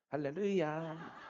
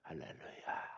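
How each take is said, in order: First: It is said in an ordinary everyday voice. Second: It is said in a put-on husky voice. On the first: This is the person's natural manner. "평상시 목소리는 할렐루야 이런 목소리인데" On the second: The person is putting on an air of holiness. "허스키가 아닌데 여기 쓰면은"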